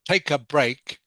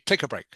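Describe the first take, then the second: First: The words are said separately, not linked together. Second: The words are linked smoothly into one chunk. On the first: The speaker calls it wrong. "instead of saying" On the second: The speaker calls it right. "try to join the words of the chunks together"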